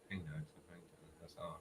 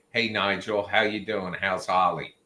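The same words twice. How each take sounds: First: Very soft, low, quick mumbled imitation; quiet talker. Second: Said in the usual way. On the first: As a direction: imitate a man who barely makes a sound. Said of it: "quiet talker". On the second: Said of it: "what at normal volume, that's like".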